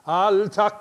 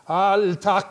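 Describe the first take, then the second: The two takes are said the same way.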